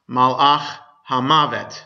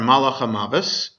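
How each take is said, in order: First: The last word ends with a t sound. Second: The last word ends with an s sound. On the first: "which in modern Hebrew is pronounced Malach HaMavet" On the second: "in Yiddish, the angel of death is the Malach HaMavos"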